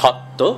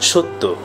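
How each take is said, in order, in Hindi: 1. पहला स्वर खुला 'aw' ध्वनि है। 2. पहला स्वर गोलाकार 'oh' ध्वनि है। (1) "আমরা লিখব সত্য" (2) "উচ্চারণ করব সত্য"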